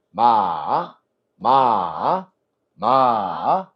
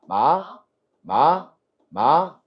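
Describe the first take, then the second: First: 마 dipping low, then rising back up; third tone. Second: 마 rising from a middle pitch; second tone. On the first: Teacher models third tone for students, 마 falling then rising. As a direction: drop 마 to a low pitch and lift it. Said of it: "자, 여기서 뚝 떨어져". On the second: Teacher models second tone for students, 마 rising from mi. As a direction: start 마 at mi and glide upward. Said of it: "미에서 시작해". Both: Shown as a demonstration.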